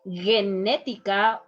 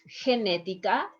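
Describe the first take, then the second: First: The first consonant is a hard sound. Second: The first consonant is a soft breathy sound. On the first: The speaker calls it wrong. "is not genética" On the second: The speaker calls it right. "ge, he is going to be"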